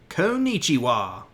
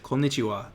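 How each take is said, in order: First: It is said with a Southern American accent. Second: It is said with a plain Japanese accent. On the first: "people from the South ... they would say konnichiwa" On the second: "they wouldn't say konnichiwa"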